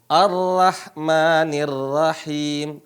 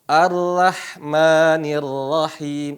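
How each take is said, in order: Both takes have the same delivery.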